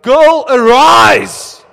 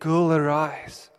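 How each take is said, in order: First: It is said loudly, like a shout. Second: It is said calmly, at normal volume.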